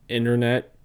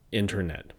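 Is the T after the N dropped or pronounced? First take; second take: dropped; pronounced. First: The T after the N is dropped. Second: The T after the N is pronounced. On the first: "drop T when they occur after N" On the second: "not internet"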